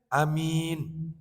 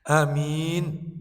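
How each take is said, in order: First: The vowel is kept short. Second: The same.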